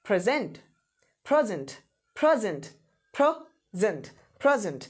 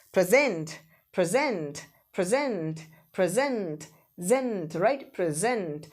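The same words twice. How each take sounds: First: present stressed on PRE, weak zent; stress on first syllable. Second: present with long stressed ZENT; short pre, drawn-out gent in present; stress on final syllable. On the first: Teacher drilling the gift word, present stressed on PRE. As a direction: hit the first syllable of present each time. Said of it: "अगर आपने प्र पे second stress किया". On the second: Teacher drilling the verb, present stressed on ZENT. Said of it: "final syllable पे stress कर दिया". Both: Shown as a demonstration.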